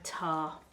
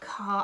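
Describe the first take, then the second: First: The word starts with a t sound. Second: The word starts with a k sound. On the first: The speaker calls it wrong. "You said that wrong. ... you said tar, not car" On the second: The speaker calls it right. "I forgot my cuss sound again"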